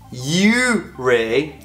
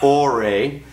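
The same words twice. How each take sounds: First: The name begins with a 'you' sound. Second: The name begins with an 'or' sound. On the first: The speaker calls it right. "we were in Ouray" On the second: The speaker calls it wrong. "not Ouray. So I apologize for pronouncing that wrong"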